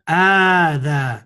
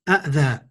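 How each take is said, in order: First: One glottal stop begins a single long vowel. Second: Two glottal stops begin the word, each with a vowel. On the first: The speaker calls it right. "you just make it long" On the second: The speaker calls it wrong. "which is really difficult to say"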